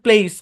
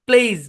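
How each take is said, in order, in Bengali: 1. শব্দটি একটি হিসহিসে s ধ্বনি দিয়ে শেষ হয়। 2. শব্দটি একটি গুনগুনে z ধ্বনি দিয়ে শেষ হয়। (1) "কিন্তু আপনি বলতেছেন প্লেস" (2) "এই এসটাকে জেডের মতো উচ্চারণ করতে হবে"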